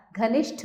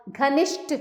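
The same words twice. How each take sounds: First: Said in the usual way. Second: घनिष्ठ ending in a plain "sht"; higher घनिष्ठ, said "gha-nisht"; wrong unaspirated ending. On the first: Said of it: "घनिष्ठ होता है". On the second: Shown as a demonstration. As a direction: drop the breath from the ठ in घनिष्ठ. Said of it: "नहीं होता".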